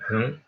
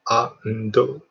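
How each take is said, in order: First: It ends on the consonant with no added vowel. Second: An extra vowel is added after the final consonant. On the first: The speaker calls it right. "native don't say ando ... and just one" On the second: The speaker calls it wrong. "Japanese English is ando ando like a three letter"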